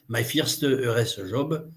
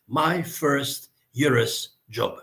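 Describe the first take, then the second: First: It is said with a French accent. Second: It is said with an English-like accent.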